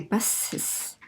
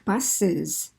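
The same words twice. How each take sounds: First: The ending is a long voiceless hissing S. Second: The ending is an added voiced syllable. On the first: The speaker calls it wrong. "We don't say buses" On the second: The speaker calls it right. "We say buses"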